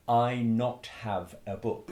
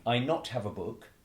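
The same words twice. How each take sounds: First: Slow, careful "I not have a book" as a learner says it; learner's mistake. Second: Said in the usual way. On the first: Retold or imitated. Teacher imitating a foreign learner's mistake. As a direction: lightly imitate a new English learner. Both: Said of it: "they will often make, um, a mistake".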